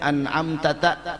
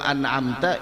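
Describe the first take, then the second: First: The final syllable ta is said twice. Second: The final syllable ta is said once.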